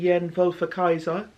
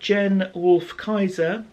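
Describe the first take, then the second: First: The surname is said a non-English way. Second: The surname is said the English way. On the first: "I don't know if it should be anglicised" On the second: "if I was to anglicise this"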